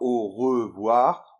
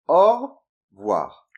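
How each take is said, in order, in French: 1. Chaque syllabe de revoir est entièrement prononcée. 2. La voyelle après le r est supprimée. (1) "on ne dit pas au revoir" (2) "on dit plutôt au revoir"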